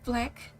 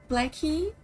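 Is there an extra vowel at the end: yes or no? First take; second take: no; yes. First: It ends on the consonant, no added vowel. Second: It ends with an added vowel, Brazilian-style.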